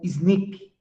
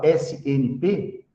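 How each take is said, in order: First: It is pronounced together as a single word. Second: It is spelled out as three separate letters. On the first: "pronuncia como S N P" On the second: "ao invés de falar S N P"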